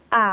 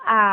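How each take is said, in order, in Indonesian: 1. Nada turun rendah, lalu naik. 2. Nada turun rendah, lalu naik.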